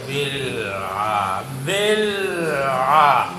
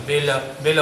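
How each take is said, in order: First: Slow, low بل with lam held before آ; full tongue control. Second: Low-pitched بل with lam bounced into a vowel; unwanted qalqalah. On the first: Teacher drills controlled tongue, slow unbounced lam. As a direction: hold بل closed, then open long into آ. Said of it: "زبان پر پورا control ہوگا". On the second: Teacher shows a loose tongue's mistake, bouncing the lam. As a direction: let the lam of بل echo loosely. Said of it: "قلقلہ ہو جائے گا". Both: Shown as a demonstration.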